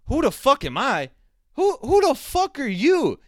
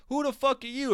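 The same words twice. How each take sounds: First: Indignant shout. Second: High, incredulous reporter voice; mock reporter. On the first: Retold or imitated. Fighter roaring back at the press, loud mock yell. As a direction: roar it back, offended and furious. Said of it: "And Raging Al goes". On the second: Reporter sneering at the fighter, higher mock voice. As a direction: put on a sneering journalist's disbelief. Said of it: "Some even asked him at the press conference".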